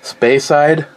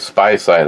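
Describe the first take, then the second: First: The first syllable sounds like 'spay'. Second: The first syllable sounds like 'spy'. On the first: The speaker calls it right. "This would be the uh, space side" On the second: The speaker calls it wrong. "if I say spy side, I get yelled at"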